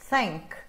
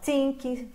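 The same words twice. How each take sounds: First: It starts with a soft blown th sound. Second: It starts with a sound other than th. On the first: The speaker calls it right. "Eu sopro e continuo o som" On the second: The speaker calls it wrong. "e não think"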